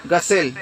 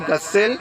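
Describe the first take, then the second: First: غسل with a short single s. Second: غسل with a held double s; doubled s. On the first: Arabic teacher giving the other pronunciation, single s in غسل. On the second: Arabic teacher giving one of two pronunciations, doubled s in غسل. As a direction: lengthen the s in غسل. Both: Shown as a demonstration. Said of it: "دونوں آپ بول سکتے ہیں".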